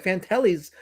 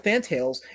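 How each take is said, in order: First: Fantellis, three syllables ending in -eez; as it sounds. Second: Fantails, two syllables, fan-tails; as spelled. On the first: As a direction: say Fantellis as fan-TAL-eez. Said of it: "to me, it sounds like Fantellis". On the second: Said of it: "but it's spelled Fantails". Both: Shown as a demonstration.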